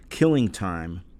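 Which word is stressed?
Killing. The stress falls on the word Killing. It names a time of murder. "originally I thought it was"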